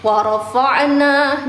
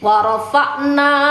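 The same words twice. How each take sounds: First: The 'ain is bounced with an echo. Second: The 'ain flows smoothly without an echo. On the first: The speaker calls it wrong. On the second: The speaker calls it right. "Ain itu dialirkan"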